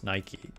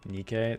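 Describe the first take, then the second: First: The name is said the English way. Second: The name is said the Greek way. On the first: It names the shoe brand. The speaker calls it wrong. "Nike is actually a mispronunciation of the Greek word" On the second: It names the Greek goddess of victory. The speaker calls it right. "Nikkei is closer to how you actually say the name of the goddess of victory in Greek"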